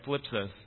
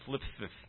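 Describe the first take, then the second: First: The s sounds are said clearly, without a lisp. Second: The s sounds are said with a lisp. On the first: "that word is a mouthful for us" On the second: "But with the lisp, it sounds kind of"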